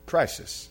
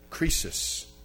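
First: It is said with the English pronunciation. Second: It is said with the Greek pronunciation. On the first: "Is there anything in English that's similar?" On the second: "listen carefully to the way I say this word"

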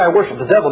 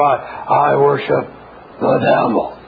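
First: It is said in a plain, ordinary voice. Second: It is said in a deep, creepy voice. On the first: "they never say" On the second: "They go"

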